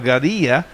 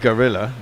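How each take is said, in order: First: The double L sounds like a Y. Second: The double L sounds like an L. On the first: "in the correct Spanish way with two L's standing for a J sound" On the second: "Alexa's based on American English, so it's probably just gorilla"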